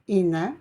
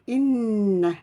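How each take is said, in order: First: The n sound is short and single. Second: The n sound is held long and doubled. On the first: The speaker calls it wrong. "Je ne dis pas ina" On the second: The speaker calls it right. "il faut insister sur cette lettre"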